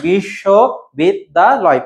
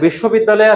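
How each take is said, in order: First: বিশ্ববিদ্যালয় slowly broken into five syllables. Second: Said in the usual way. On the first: Shown as a demonstration. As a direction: say বিশ্ববিদ্যালয় as separate beats, biś-śo-bid-da-loy. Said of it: "পাঁচটি আছে". (বিশ্ববিদ্যালয় অক্ষর ভেঙে ভেঙে ধীরে বলা) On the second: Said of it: "বিশ্ববিদ্যালয়ে আছে পাঁচটি".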